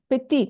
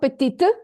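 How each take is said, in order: First: The final t is silent. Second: The final t is pronounced. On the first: The speaker calls it right. "it's not pronounced" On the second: The speaker calls it wrong.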